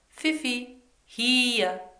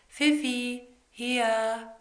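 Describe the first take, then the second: First: The call sounds firm and seriously meant. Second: The call sounds half-hearted and unserious.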